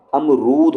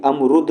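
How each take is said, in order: First: अमरूद slowed, with a long "roood" ending. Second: अमरुद with a quick "rud" ending; short U. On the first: Teacher giving the correct form, long U in अमरूद. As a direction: stretch the U in अमरूद. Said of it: "अमरूद होता है". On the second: Teacher showing the wrong form, short U in अमरुद. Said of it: "अमरुद नहीं होता". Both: Shown as a demonstration.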